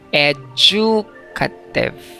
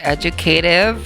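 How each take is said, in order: First: The stress is on the second syllable. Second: The stress is on the third syllable. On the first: "wag na wag ninyong basahin yan ng educative. ... not on the second syllable ang stress" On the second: "that's American English. ... sa U S naman, it's on the K, the third syllable"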